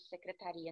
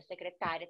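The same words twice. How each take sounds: First: Secretaria said as se-cre-ta-RI-a; stress on RI in secretaria. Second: Secretária said as se-cre-TÁ-ria; stress on TÁ in Secretária. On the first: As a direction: land on the RI of secretaria. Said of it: "secretaria não tem". (secretaria com a tônica no RI) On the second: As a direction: land on the TA of Secretária. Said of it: "Secretária tem acento". (Secretária com a tônica no TÁ) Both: Shown as a demonstration.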